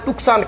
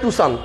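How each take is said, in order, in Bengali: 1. 's' এর আগে একটি 'k' ধ্বনি শোনা যায়। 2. 's' এর আগে কোনো 'k' ধ্বনি শোনা যায় না। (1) "কেউ বলে টুকসান" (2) "ওটার নাম হচ্ছে টুসান"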